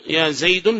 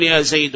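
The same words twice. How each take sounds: First: "زيد" closing on -un; wrong tanween. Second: "زيد" closing on a bare -u; single damma. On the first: Teacher shows students the error, "زيد" said Zaydun. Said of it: "فهذا لحن". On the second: Teacher models correct vocative, "زيد" said Zaydu. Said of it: "تقتصر على حركة واحدة فقط". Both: Shown as a demonstration.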